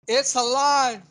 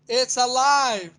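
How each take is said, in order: Both takes have the same delivery.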